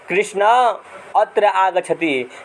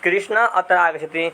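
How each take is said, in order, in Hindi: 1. एक स्वर खिंचा जाता है, जैसे दूर से पुकारते समय। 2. सभी स्वर अपनी सामान्य छोटी लंबाई बनाए रखते हैं। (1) "वही व्यक्ति जब हमसे दूर दूरी पे होगा" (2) "मेरे पास में बैठेगा बैठा रहेगा व्यक्ति"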